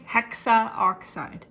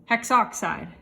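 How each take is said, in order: First: The 'a' vowel before 'oxide' is pronounced. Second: The 'a' vowel before 'oxide' is dropped. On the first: The speaker calls it wrong. "do not say hexaoxide" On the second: The speaker calls it right. "You need to just say hexoxide"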